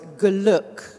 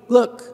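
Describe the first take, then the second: First: A tiny vowel sounds between the G and L. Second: The G and L run together with no vowel. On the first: The speaker calls it right. "to put a little tiny shadow vowel between the G and the L" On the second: The speaker calls it wrong. "we don't want to be Glück"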